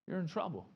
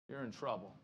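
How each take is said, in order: First: You're punched, trouble falling; stress on YOU'RE. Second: Low, soft, grave You're in trouble; quiet warning. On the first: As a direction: lean hard on You're in You're in trouble. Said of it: "repeats with stress". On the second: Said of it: "low quiet warning". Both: Shown as a demonstration.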